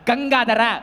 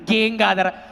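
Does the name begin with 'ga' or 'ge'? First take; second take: ga; ge. First: The first syllable has an 'a' vowel. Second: The first syllable has an 'e' vowel. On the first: The speaker calls it right. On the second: The speaker calls it wrong.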